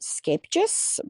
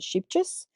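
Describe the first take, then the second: First: The name is said the official Dutch way. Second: The name is said in a simplified, anglicized way. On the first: This is how the name is properly said. "it's actually pronounced Skapejus" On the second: This is the easier everyday version used in the shop. "we pronounce it Sheepjus"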